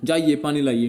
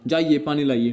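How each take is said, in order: First: It is said at a high pitch, as an order. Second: The same.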